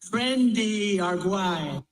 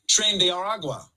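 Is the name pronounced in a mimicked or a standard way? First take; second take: mimicked; standard. First: The name is pronounced in an imitated, altered way. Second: The name is pronounced in a standard way.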